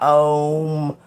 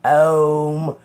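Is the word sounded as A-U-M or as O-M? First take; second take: O-M; O-M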